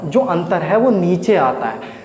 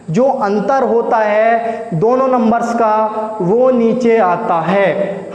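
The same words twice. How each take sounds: First: Said in the usual way. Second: Slow, drawn-out, each word placed, with नीचे leaned on; slow emphatic repeat. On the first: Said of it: "repeats the rule slowly". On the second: Shown as a demonstration. Teacher drilling the rule to students, slow and emphatic. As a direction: spell the rule out word by word so it sinks in. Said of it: "teacher repeats the rule for emphasis".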